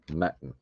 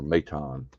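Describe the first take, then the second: First: "Maton" as MAT-un; first pronunciation guess. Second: "Maton" as may-TAHN; alternative pronunciation guess. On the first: Card opener unsure of a player's name, "Maton" as MAT-un. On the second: Card opener trying another reading, "Maton" as may-TAHN. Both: Real, not acted. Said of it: "What the hell they say it?".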